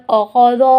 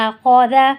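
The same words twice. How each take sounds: First: اخذو with the ذ made heavy and ending in o; the wrong way: اخذو, heavy ذ, rounded end; wrong reading. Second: اخذا with only خ heavy and a light ذ; correct reading. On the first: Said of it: "نہیں، یہ پورا غلط ہو گیا". (غلط تلفظ: اخذو، بھاری ذ کے ساتھ) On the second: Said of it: "یہاں پہ صرف اور صرف کیا موٹا ہوگا". (درست تلفظ: اخذا، صرف خ موٹا) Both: Shown as a demonstration.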